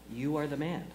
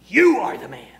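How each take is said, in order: First: The words are said quietly and softly. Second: The words are said loudly and forcefully. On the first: "Or was it quiet?" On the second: "I want to know what the tone of inflection of that would be"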